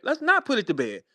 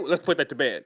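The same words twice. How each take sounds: First: Said in the usual way. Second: Much lower mocking voice; mimicking robotic talker. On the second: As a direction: drop low, half-laughing, to mimic him. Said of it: "That ain't how humans communicate".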